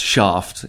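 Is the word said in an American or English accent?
English. The word is said in an English accent. The speaker calls it right.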